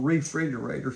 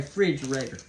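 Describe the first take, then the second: First: Refrigerator with every syllable, starting "ree"; the long way to say refrigerator; full refrigerator. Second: Refrigerator clipped to "fridgerator", no "re"; Southern "fridgerator" for refrigerator; Southern short form. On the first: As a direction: spell out all of refrigerator, "ree-frig-er-ator". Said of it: "it's just too long". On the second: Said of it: "we just say". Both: Shown as a demonstration.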